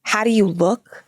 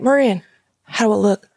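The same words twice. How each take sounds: First: Slow, incredulous Brooklyn mom imitation; Fran Drescher. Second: Lightly imitated Louisiana accent; proud stepdad with a Louisiana twang. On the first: Mom answering stepdad in hunting gear, incredulous Brooklyn accent. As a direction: echo the question in disbelieving Brooklynese. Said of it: "talks like Fran Dresser". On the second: Stepdad showing mom his hunting gear, Louisiana accent. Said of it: "he's from Louisiana".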